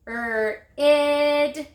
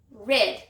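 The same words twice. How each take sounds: First: 'Er, id' drawn out, stepping up to a louder held 'id'; stretched word. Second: Said in the usual way. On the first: Shown as a demonstration. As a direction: stretch rid as a long 'Er', then a long 'id'. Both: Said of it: "Stretch it".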